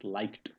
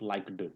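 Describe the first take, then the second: First: The word is said as one syllable. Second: The word is said as two syllables. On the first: The speaker calls it right. "There is T in the end when we pronounce it" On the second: The speaker calls it wrong. "It's not liked"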